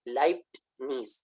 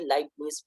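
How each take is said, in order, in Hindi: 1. Leibniz के अंदर एक हल्की t की आवाज़ सुनाई देती है। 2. Leibniz के अंदर कोई t की आवाज़ सुनाई नहीं देती। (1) "असल तलफ़्फ़ुज़ के अंदर टे की आवाज़ मामूली-सी मौजूद है" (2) "इंग्लिश के अंदर टे को साइलेंट करके यानी टी को साइलेंट करके"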